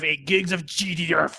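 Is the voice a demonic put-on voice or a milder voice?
milder. The voice is only mildly demonic. The speaker calls it wrong. "That wasn't nearly as satanic as you did it before"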